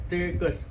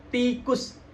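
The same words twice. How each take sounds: First: TIKUS slurred with a loose T, towards "tekus"; no tongue contact. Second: TIKUS with a crisp T and clear "ee"; touch and release. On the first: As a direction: blur the start of TIKUS. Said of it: "Kalau nggak bersentuhan". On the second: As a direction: tap the tongue sharply to begin TIKUS. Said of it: "Bersentuhan, lalu berpisah". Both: Shown as a demonstration.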